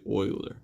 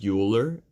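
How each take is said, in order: First: The name is not said as its spelling suggests. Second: The name is said as its spelling suggests. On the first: The speaker is part of the math community. The speaker calls it right. "but it's actually Euler" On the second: The speaker is not part of the math community. The speaker calls it wrong. "It looks like it should be pronounced as Euler"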